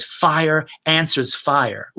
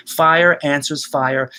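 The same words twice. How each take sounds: First: Very slow, stress on answers; slow dramatic line; slow, weighty. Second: Slow, stress on fire; slow reading of the image; slow, savoured. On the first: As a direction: drop it in slowly, let answers ring. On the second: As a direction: draw the words out. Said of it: "He's got this great image". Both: Shown as a demonstration.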